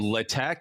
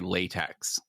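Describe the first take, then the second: First: The word ends with a plain k sound. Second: The word ends with a ks sound. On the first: The speaker calls it right. "as long as you get the k sound at the end" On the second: The speaker calls it wrong. "as long as you don't say latex"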